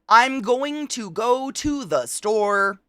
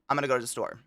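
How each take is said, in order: First: 'Going to' is fully pronounced, every syllable. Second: 'Going to' is reduced, coastal style.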